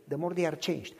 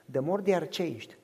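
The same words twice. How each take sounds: The two takes are said the same way.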